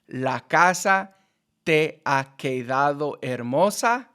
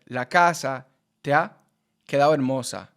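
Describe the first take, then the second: First: Each word is pronounced separately and distinctly. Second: The words run together into one stream. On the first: "instead of" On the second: "it would all be together"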